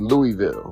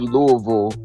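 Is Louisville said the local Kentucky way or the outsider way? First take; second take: outsider; local. First: It is said the outsider, non-local way. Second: It is said the local Louisville way.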